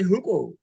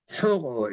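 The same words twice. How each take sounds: First: ሕቆ with a hard ቆ; wrong pronunciation. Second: ሕቆ with the throaty ቖ, slow; correct pronunciation. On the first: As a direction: say ሕቆ with a sharp ቆ. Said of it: "We don't say". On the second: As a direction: say ሕቆ slowly, the native way. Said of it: "is correct". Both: Shown as a demonstration.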